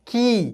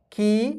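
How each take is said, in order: First: की as the long ī, pitch falling; की, long-ī step of a syllable drill. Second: की as the short i, pitch lifting; की, short-i step of a syllable drill. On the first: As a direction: recite की with a falling tune. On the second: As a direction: recite की with a rising tune. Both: Shown as a demonstration. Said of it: "क की बारह खड़ी बन गया".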